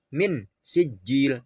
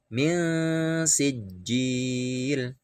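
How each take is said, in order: First: Min sijil with the nun said plainly and no hum; wrong, too clear. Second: Min sijil very slowly, nun hummed two beats; ikhfa, very slow. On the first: (Min sijil dibaca jelas, salah) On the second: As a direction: stretch the nasal hum of min before sijil. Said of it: "dua ketuk". (min sijil sangat pelan, dengung dua ketuk) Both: Shown as a demonstration.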